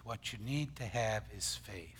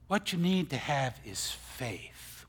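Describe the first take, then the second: First: Softly whispered repeat, unvoiced and low. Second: Said in the usual way. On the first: Shown as a demonstration. Preacher whispering the point to his congregation. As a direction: drop to a whisper to drive it home.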